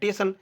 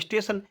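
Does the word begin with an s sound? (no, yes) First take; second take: no; yes. First: The opening s sound is dropped. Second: The word starts with an s sound. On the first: The speaker calls it wrong. "स्वर का लोप कर देते हैं" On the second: The speaker calls it right. "होता क्या है? स्टेशन"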